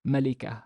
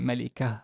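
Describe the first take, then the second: First: The word ends softly with an h sound. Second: The same.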